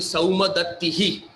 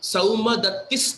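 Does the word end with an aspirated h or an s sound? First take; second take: aspirated h; s sound. First: The word ends with a breathy h and vowel. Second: The word ends with a plain s sound. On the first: This is the word standing on its own. "Saumadattihi with an aspirated H dot" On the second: The word is joined to the next word. "we don't say the aspirated H. We just say whatever it is, S"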